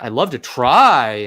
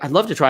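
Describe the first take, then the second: First: The word try is said with strong emphasis. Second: The word try is said lightly, without emphasis. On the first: The speaker seems not to believe in themselves. The speaker calls it wrong. "If you put emphasis on it" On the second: The listener barely notices the word. The speaker calls it right. "you don't have to put emphasis on try"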